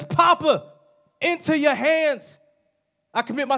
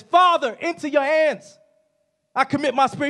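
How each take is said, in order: First: Reach up to Papa with the voice; crying out. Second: High, loud call on Father then easing; crying out. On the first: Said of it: "He screams out". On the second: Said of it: "Jesus screams out". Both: Acted.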